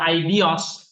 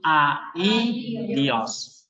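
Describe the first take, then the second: First: The first two vowels merge into one diphthong. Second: The first two vowels are said as separate syllables. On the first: The speaker calls it wrong. "bukan I dios" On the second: The speaker calls it right. "tapi A, I, dios. Karena ada tanda dua titik tadi"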